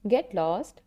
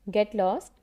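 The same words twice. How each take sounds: The two takes are said the same way.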